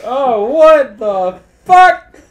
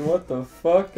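First: High, loud, slow, laughing shock; shocked disbelief. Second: Said in the usual way. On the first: Retold or imitated. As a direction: drag it out in hammed-up horror. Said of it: "And then he's like". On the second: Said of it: "He said".

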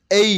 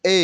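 First: "এই" with a gliding ay sound; correct English way. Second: Put-on "এ" as a flat single vowel, the old wrong way. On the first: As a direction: say "এই" sliding from e to i. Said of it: "এই আমার সঙ্গে please". (সঠিক উচ্চারণে "এই") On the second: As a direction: say "এ" plainly, like before. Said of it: "আমরা আগে বলতাম". (পুরনো ভুল উচ্চারণে "এ") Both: Shown as a demonstration.

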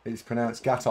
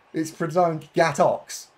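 First: Gator without any x, ending on an open vowel; pronunciation shown. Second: Gatox with a hard "ks" ending; slow, higher correction landing on Gatox; mock correction. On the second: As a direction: say Gatox like "gat-ox", drawn out. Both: Shown as a demonstration.

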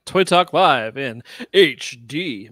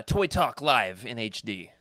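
First: Slow, louder announcer echo. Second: Slow announcer intro. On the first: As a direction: boom out the segment title. Echoing segment name louder. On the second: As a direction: announce the segment title slowly. Announcing segment name. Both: Acted.

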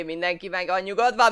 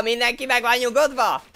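First: Louder call for calm; raised voice calling for calm. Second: Higher, louder shout of mindenki meg van nyugodva; loud mock-stern order to calm down. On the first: Acted. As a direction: call out to settle everyone down. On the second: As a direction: yell at everyone to calm down.

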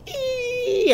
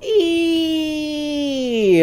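First: Extremely high, thin squeaky "ee"; straining up to a tiny high squeal. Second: Long high "ee", sliding down at the end; excited leaping "ee"; drawn-out "ee" squeal. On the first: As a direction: squeak "ee" at the very top of your range. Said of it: "high, squeaky voice, try that and go". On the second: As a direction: sustain a high-pitched "eee". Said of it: "take the W off the front of that and just go". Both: Shown as a demonstration.

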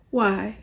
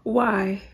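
First: Said in the usual way. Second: A breathless whispered why; whispered disbelief. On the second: Real, not acted. Vlogger asks her viewers why, in a stunned whisper. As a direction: whisper it, too stunned to speak.

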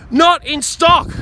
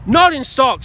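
First: "Not in stock" slow, loud, punched hard on "Not"; stressed outrage. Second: "Not in stock" repeated quicker, a little less punch; flatter repeat. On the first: Repeating the bad news to viewers, slow and punched. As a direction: spit out "Not in stock" slowly, hitting "Not". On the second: Repeating it to himself, weary and falling. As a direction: let "Not in stock" fall as a tired echo. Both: Real, not acted. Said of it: "ranting on the roof".

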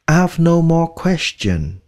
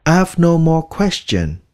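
First: Slow model sentence. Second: Said in the usual way. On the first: Shown as a demonstration. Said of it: "slow model sentence". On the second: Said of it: "repeat of model".

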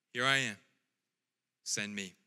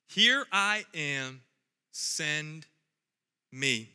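First: Said in the usual way. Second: "Here I am." drawn out slow, pause before "Send" and "me."; slow, deliberate repeat. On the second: Acted. Pastor repeating Isaiah's answer slowly for emphasis. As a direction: let each word of "Send me." land apart. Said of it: "repeats with emphasis".

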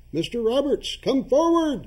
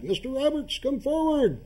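First: Loud ceremonial call upward; summoning call. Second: Higher, eerie ritual summons; eerie summoning. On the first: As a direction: call him forth loudly. Chairman summoning the ghost. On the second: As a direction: summon a spirit, high and drawn. Chairman summoning the ghost again. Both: Acted.

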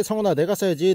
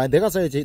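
First: 써야지 punched as the key word; stress on 써야지. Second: 내가 hit hard, the rest falling away; stress on 내가. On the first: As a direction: lean on 써야지 when saying it. (써야지에 힘을 주어) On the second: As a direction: put the weight on 내가, not 써야지. (내가에 강세를 두어) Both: Shown as a demonstration. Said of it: "아니, 아니, 아니".

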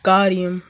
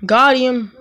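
First: Said in the usual way. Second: Excited. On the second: Real, not acted. Gamer celebrating a score, triumphant. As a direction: punch it out in triumph. Scoring in game, louder retake.

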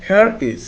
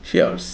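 First: Said in the usual way. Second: "here's" as one syllable; contracted form. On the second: Shown as a demonstration. Teacher models the short form, "here's" in one syllable. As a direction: join it up into a single "here's". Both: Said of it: "কি হবে?".

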